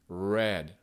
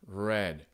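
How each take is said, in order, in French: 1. Le R est un R américain lisse, non vibré. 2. Le R est un R américain lisse, non vibré.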